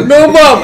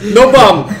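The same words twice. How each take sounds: First: Even higher, louder hammed-up yell; louder mock shout. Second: High, loud mock yell of a clumsy alien; mock shouting. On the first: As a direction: push the repeat way up, shrieking the word bomb. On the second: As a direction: bark it out high and loud, hammed up. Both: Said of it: "He's like".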